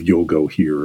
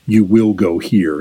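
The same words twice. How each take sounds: First: Said in the usual way. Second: YOU WILL as two full, separate words; no contractions. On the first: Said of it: "instead of". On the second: Retold or imitated. Explaining how he gave orders, uncontracted "You will go here". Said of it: "he would not use contractions".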